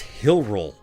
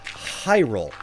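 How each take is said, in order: First: The first syllable sounds like 'hill'. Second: The first syllable sounds like 'high'. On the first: "Since you say Hylians, it's Hill, uh, it, it's it's Hillroll" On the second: "will also say Hyrule"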